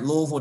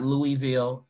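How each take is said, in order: First: The name is said the local way. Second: The name is said the outsider way. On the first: The speaker calls it right. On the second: The speaker calls it wrong.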